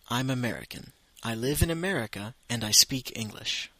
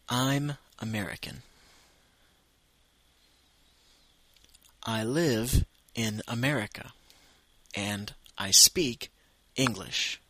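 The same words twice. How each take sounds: First: It is spoken at a natural speed. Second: It is spoken slowly and carefully.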